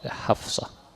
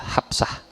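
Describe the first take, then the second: First: The middle consonant is an F sound. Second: The middle consonant is a P sound. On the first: "Hafsah pakai F dan pakai shad" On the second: "Pakai P dan pakai A itu Hafsah"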